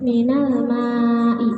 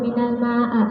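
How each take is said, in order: First: The last word ends in an i vowel. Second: The last word ends in an a vowel. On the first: The speaker calls it right. "tanda jarnya kasroh tanpa tanwin" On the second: The speaker calls it wrong. "tidak dibaca"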